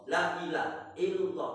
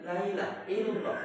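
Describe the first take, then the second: First: Laa and ilaha are said as separate words. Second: La runs into ila, sounding like lail. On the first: There is no god but God. The speaker calls it right. "Iku sing bener untuk la ilaha illallah" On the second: There is no night but God. The speaker calls it wrong. "Tidak ada bengi kecuali Allah"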